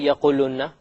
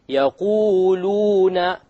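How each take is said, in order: First: The long vowel is cut short. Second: The long vowels are held for two counts. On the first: The speaker calls it wrong. "You don't say" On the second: The speaker calls it right. "You have to make it long"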